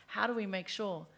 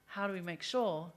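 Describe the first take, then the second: No difference in how they are said.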